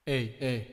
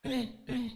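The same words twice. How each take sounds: First: Said in the usual way. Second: Very high, soft processed voice; small, high-pitched altered "hey"; voice effect test. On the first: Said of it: "we're back to normal". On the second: Shown as a demonstration. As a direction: test the mic through a pitch-raised effect. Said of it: "Now, we're back to normal".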